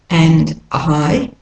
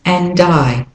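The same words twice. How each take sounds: First: The words are said separately. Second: The words run together smoothly.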